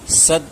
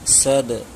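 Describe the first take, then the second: First: The final consonant ends with no bounce at all. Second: The final consonant ends with a slight bounce. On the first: The speaker calls it wrong. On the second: The speaker calls it right.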